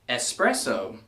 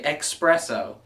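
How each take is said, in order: First: The word begins with a plain s sound. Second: The word begins with a ks sound. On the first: The speaker calls it right. "Also doesn't have an X in it" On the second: The speaker calls it wrong. "I keep hearing people say espresso. It's not express"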